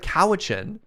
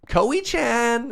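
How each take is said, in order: First: The name is said in its ordinary form. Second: The name is said like a Japanese name. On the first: The speaker calls it right. "Instead of Cowichan" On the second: The speaker calls it wrong. "Google had a really hard time pronouncing it"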